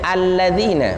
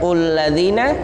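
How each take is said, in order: First: The word begins with an a vowel. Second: The word begins with a u vowel. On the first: The speaker calls it right. "bacanya alladzina" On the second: The speaker calls it wrong. "bukan ulladzina"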